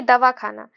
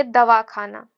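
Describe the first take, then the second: First: दवाखाना run together without a break; joined as one word. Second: दवाखाना split as दवा, खाना; split into two words. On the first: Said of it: "medical हो गया". (दवाखाना मिलाकर, एक शब्द में) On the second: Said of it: "कि आप दवाई खा लेना". (दवाखाना को दवा और खाना में अलग करके) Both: Shown as a demonstration.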